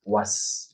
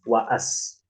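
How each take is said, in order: First: It is one short, directly linked syllable. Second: The vowel is drawn out long. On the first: The speaker calls it right. "Jadi dibacanya langsung" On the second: The speaker calls it wrong.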